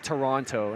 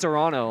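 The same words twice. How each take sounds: First: The second T is clearly pronounced. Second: The second T is dropped. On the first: The speaker calls it wrong. "calling it Toronto" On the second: The speaker calls it right. "we don't even pronounce the T"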